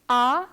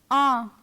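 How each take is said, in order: First: Ah as an open oral French A, rising; French letter A. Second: Ah as a French nasal vowel, falling. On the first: Teacher repeats the comparison for students, oral French A. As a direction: say Ah through the mouth only, tune lifting. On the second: Teacher repeats the comparison for students, nasal ah. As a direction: send ah through the nose, tune dropping. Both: Shown as a demonstration. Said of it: "I'll repeat them once again".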